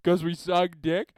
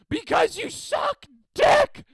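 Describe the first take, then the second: First: It is mumbled quietly under the breath. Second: It is yelled very loudly.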